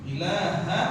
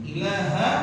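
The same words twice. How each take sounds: No difference in how they are said.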